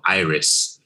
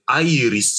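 First: The name is said with English pronunciation. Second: The name is said with Korean pronunciation. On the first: "it's a show called Iris" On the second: "if you want to go with the Korean title, it's Iris"

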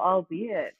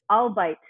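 First: It sounds like three syllables, 'all-bee-it'. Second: It sounds like the two words 'I'll bite'. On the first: This is the form most people use. The speaker calls it right. "somebody corrected me and I was like, oh" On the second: This is how the speaker's parents say it. The speaker calls it wrong. "Do you know how I used to pronounce this?"

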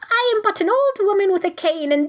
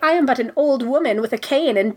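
First: It is said in a put-on old-lady voice. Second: It is said in the speaker's natural voice.

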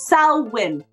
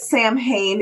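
First: The name is pronounced differently from its spelling. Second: The name is pronounced the way it is spelled. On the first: The speaker calls it right. "It's Samhain" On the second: The speaker calls it wrong. "I know it's spelled Samhain. Please stop pronouncing it Samhain"

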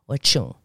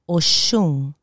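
First: The middle consonant is a sharp 'ch' sound. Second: The middle consonant is a soft 'sh' sound.

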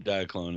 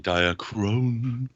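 First: The consonant after 'dia' is an L sound. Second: The consonant after 'dia' is an R sound. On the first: The speaker calls it wrong. "We don't say diaclone in this house" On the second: The speaker calls it right. "We say diachrone"

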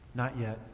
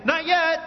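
First: It is said with flat, low energy. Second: It is said with lively, high energy. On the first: "It's always" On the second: "I never say it with great energy. I never say"

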